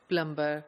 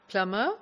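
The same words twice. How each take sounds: First: The middle b is clearly pronounced. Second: The middle b is silent.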